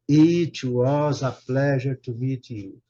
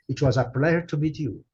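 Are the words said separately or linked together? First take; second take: separately; linked. First: Each word is said separately and distinctly. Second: The words run together in one linked flow. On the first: The speaker calls it wrong. "a gente não fala" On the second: The speaker calls it right. "Tudo junto, vai juntando as palavras"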